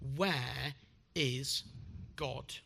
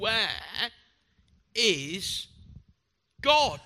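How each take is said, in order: First: It is said sternly but least so. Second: It is said in a sterner tone.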